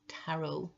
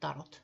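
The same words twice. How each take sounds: First: It is said with an English pronunciation. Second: It is said with a Finnish pronunciation. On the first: "tarot is pronounced tarot in English" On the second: "in Finland we pronounce it tarot"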